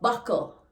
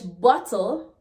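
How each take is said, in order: First: It is said in Jamaican patois. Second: It is said in standard English.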